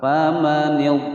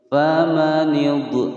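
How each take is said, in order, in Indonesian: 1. Konsonan akhir ditahan diam tanpa pantulan. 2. Konsonan akhir dilepas dengan pantulan bergema. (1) "Nah, begitu ya" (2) "tidak boleh dipantulkan ya, tidak boleh ditawalludkan ... salah ya"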